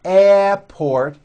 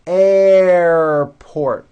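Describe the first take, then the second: First: Airport said without the R, as "ehport"; wrong airport. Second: Airport said loud with a strong, held R; Airport, R sound stretched and strong. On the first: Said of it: "It's not airport". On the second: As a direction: lean hard on the R in Airport. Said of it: "like that with a strong R sound". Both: Shown as a demonstration.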